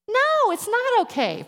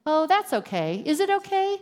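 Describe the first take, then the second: First: Slow, much higher and louder, leaning hard on NO; emphatic correction. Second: Mock breezy brush-off. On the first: Speaker correcting the brush-off to her listeners, slow emphatic no. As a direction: stop them cold with a firm no, drawn out. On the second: Mocking a dismissive apology reply. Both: Shown as a demonstration.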